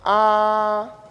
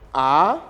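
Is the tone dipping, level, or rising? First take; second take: level; rising. First: The pitch stays level throughout. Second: The pitch rises from low to high. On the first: "un ton qui est plat" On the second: "c'est un ton montant, c'est-à-dire ça quitte le bas vers le haut"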